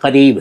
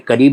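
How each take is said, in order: First: The first consonant is a throaty back q. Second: The first consonant is a plain front k. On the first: The speaker calls it right. "करीब है" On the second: The speaker calls it wrong. "अरे करीब नहीं"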